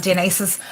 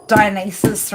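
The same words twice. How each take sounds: First: Dionysus said the Greek way, tee-NEE-sos; Greek pronunciation. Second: Dionysus said the English way, dye-oh-NYE-sus; English pronunciation. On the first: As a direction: Dionysus with Greek vowels and stress. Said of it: "the proper pronunciation of these words". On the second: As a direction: Dionysus in an Aussie English accent. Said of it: "trying to say it, like, in English". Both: Shown as a demonstration.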